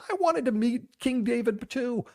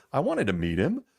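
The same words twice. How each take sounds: First: Put-on childlike voice. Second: Said in the usual way. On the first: Voicing his child self.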